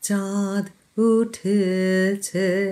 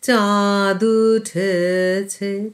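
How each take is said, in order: First: There is a short break after the first word. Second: The words run together without any break. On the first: The speaker calls it right. "চাঁদ থেমে গেলাম, উঠেছে" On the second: The speaker calls it wrong. "না থেমে বলতাম চাঁদ উঠেছে, চাঁদু দু, না, সেটি ভুল"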